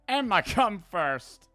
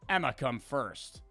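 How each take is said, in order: First: It is said in a put-on Italian accent. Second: It is said in the speaker's ordinary accent.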